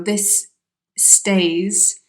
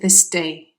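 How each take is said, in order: First: Stays is said in full with its s. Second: Stays is reduced so it sounds like day. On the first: "this stays is reduced to" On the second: "is reduced to this day"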